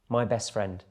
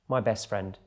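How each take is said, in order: No difference in how they are said.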